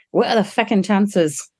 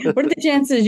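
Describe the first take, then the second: First: Put-on slow Irish accent slipping into Scottish; botched Irish accent. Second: Said in the usual way. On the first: Quoting an Irish colleague's amazed question, in a botched Irish accent. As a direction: attempt an Irish accent, landing closer to Scottish. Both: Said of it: "That was more Scottish".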